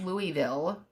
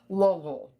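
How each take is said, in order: First: The name is said without a swallowed throaty sound. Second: The name is said swallowed, deep in the throat. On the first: The speaker calls it wrong. "it's not Louisville" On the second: The speaker calls it right. "you have to like put it in the back of your throat"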